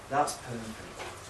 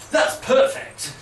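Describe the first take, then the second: First: It is said in a calm, reassuring tone. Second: It is said in a bright, flippant tone.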